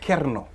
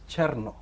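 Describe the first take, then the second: First: The name begins with a ker sound. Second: The name begins with a cher sound. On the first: This is how some other people say the name. The speaker calls it wrong. "some people say Kerno" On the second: This is how the owner of the name says it. The speaker calls it right. "The right pronunciation is Cherno"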